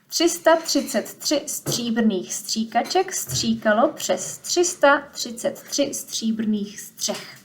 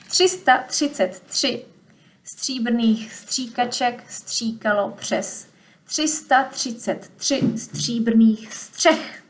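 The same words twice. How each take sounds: First: The sentence is said at a faster pace. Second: The sentence is said at a slower pace. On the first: "say it a little bit faster" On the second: "Let me say it again"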